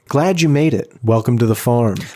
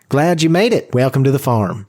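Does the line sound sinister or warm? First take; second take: sinister; warm. First: It is said in a sinister way. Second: It is said in a warmer way.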